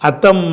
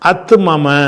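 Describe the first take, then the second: First: The two m sounds merge into one doubled m. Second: The two m sounds are separated by a vowel. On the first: This is the form after the merging rule applies. The speaker calls it right. "அத்தம்ம என்று வந்துடும்" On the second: This is the unmerged form before the rule applies. The speaker calls it wrong. "நம்ம அந்த இதுகாமுடைய சட்டத்தின் பிரகாரம் சொல்லக்கூடாது"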